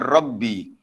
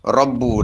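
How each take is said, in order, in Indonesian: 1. Kata itu diakhiri dengan vokal i pendek. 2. Kata itu diakhiri dengan vokal u pendek. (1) "ada riwayat lain yang baca dengan Rabbi" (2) "dibaca dengan dengan Rabbu dengan baris depan"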